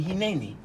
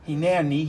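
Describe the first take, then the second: First: "Hineni" run together as one smooth word, hi-NE-ni; fuse it back into "Hineni"; joined as one word. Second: "Hine Ani" said as two separate words, hine then ani; split into two words. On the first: Teacher showing the joined Hebrew word, said as one smooth word. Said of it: "It's Hine Ani". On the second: Teacher breaking the word down for the class, said as two words. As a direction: break "Hine Ani" apart so ani stands on its own. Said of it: "It's Hine Ani, as opposed to Anochi". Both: Shown as a demonstration.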